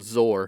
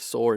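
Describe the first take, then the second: First: The name begins with a buzzing z sound. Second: The name begins with a hissing s sound. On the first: The speaker calls it right. "It's called Zor instead of Sor" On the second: The speaker calls it wrong. "instead of Sor"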